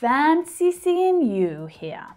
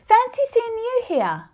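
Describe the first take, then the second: First: The tone changes and sounds sarcastic. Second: The pitch stays high and sounds excited. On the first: The meeting is no surprise at all. "in the sarcastic version, it sounds a little different" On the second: The speaker is genuinely and happily surprised. "Hear how the pitch stays high?"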